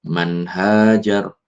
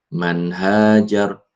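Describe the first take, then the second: The two takes are said the same way.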